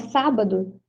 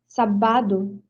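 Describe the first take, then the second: First: The stress is on the first syllable. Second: The stress is on the second syllable. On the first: The speaker calls it right. "Mas não é, é sábado" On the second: The speaker calls it wrong. "a sílaba tônica seria no ba"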